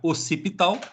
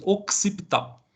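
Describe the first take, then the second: First: The middle has a plain s sound, no k. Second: The middle has a ks sound, like x. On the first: "vocês podem falar occipital" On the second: "um som de X aí, como se fosse occipital"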